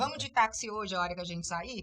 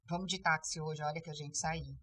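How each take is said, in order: First: The voice rises at the end. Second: The voice does not rise at the end.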